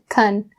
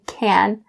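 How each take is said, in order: First: The vowel is quick and reduced. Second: The vowel is full and clearly pronounced. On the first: "It's really quick and subtle" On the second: "saying the ah sound very clear"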